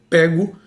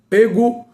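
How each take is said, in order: First: The first vowel is an open e. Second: The first vowel is a closed e. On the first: It is the present indicative form. "com o timbre aberto" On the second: It is the past participle form. "com o timbre do E fechado"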